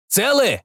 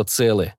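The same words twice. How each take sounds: First: Calling out. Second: Said in the usual way. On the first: Acted. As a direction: call out asking if they're alive. Shouted question.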